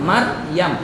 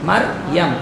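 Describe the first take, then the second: Both takes have the same delivery.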